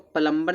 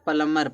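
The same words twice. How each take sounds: First: The b sound is pronounced in the word. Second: The b sound is silent in the word. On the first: The speaker calls it wrong. "इसको प्लम्बर नहीं पढ़ता" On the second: The speaker calls it right. "प्लम्बर पढ़ते हैं"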